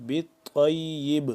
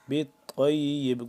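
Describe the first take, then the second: First: The word ends on a bouncing, echoing b. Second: The word ends on a bouncing, echoing b.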